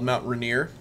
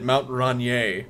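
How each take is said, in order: First: The name is said in the plain local way. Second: The name is said in a fancy, dignified way.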